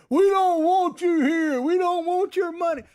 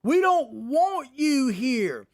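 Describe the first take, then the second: First: Imagined angry shout. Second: Slow, drawn-out mock chant, a bit louder; retold protest shout. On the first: Pretend. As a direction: yell it like a protester in a packed restaurant. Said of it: "in a restaurant and shouting". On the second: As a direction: imitate the protesters chanting at the diners. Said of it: "They're telling them to get the F out of here".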